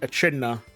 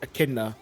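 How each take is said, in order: First: The middle consonant is a 'ch' sound. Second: The middle consonant is a 'k' sound. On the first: The speaker calls it wrong. "like to pronounce like the the ch" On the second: The speaker calls it right. "as in like a k"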